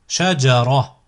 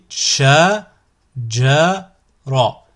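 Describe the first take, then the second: First: The syllables are said together without pauses. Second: The syllables are said separately with pauses. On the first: "ensuite vous le prononcez d'un coup" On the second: "vous découpez le mot"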